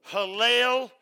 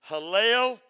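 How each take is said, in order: Both takes have the same delivery.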